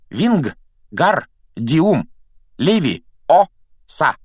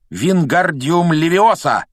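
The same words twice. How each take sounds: First: The vowel in 'gar' is long. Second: The vowel in 'gar' is short. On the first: The speaker calls it right. "Надо произносить так. ... В слоге «гар» должна быть длинная «а»" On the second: The speaker calls it wrong. "Ты неправильно произносишь заклинание!"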